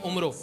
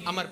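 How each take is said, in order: First: It starts with 'u' and ends in 'o'. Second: It starts with 'a' and has no final 'o'. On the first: The speaker calls it wrong. "वो कहते हैं कि उम्रो" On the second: The speaker calls it right. "उसे अमर पढ़ा जाता है"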